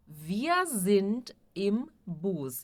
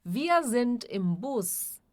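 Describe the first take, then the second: First: Very slow model sentence, words separated. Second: Said in the usual way. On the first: Shown as a demonstration. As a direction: spell it out slowly for learners, pausing between words. Teacher repeats sentence word by word. (bem devagar, palavra por palavra)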